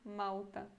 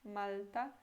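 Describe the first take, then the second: First: The L sounds like a U vowel. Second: The L is a clear L, tongue forward. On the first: "como se tivesse U, não L" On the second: "esse L é com a língua mais pra frente"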